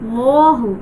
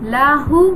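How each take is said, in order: First: The L sound is thick and heavy. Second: The L sound is thin and light. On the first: The speaker calls it right. "লামকে কি মোটা করে পড়তে হয়" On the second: The speaker calls it wrong. "আমরা অনেকে এখানে ভুল পড়ি, লাহু পড়ি"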